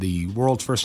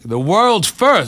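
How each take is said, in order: First: It is said in the speaker's own voice. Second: It is said in an imitated character voice.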